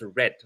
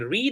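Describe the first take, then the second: First: It sounds like the color red. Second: It does not sound like the color red. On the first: It is the past tense. "read in the past, it's pronounced like this color. So it's pronounced red" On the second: It is the present tense. "every day I read a book"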